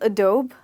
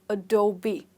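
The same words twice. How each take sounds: First: The word ends without a clear 'bee' sound. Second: The word ends with a clear 'bee' sound. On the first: The speaker calls it wrong. "Most of us do call it like that" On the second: The speaker calls it right. "the B that you know"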